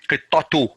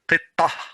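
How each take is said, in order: First: The word ends with a t sound and vowel. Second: The word ends with an h sound. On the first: The phrase continues after the word. "So I'm not stopping. I'm continuing. ... So it pronounces as ta" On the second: The speaker stops after the word. "if I'm going to stop, I'm going to say qittah. Ha. Pronounces like ha"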